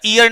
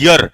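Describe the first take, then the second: First: ईयर said as "ee-yar" with a long ee at the start; the mistaken ईयर, opening on a long ee; ईयर read wrongly as two syllables, ee then yar. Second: यर said as one short syllable "yar" with no ee; the correct यर, starting straight on y; यर clipped to a single syllable beginning with y; right way. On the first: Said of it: "ऐसे ही इसको ईयर नहीं पढ़ते". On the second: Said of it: "इसे कहते हैं यर". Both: Shown as a demonstration.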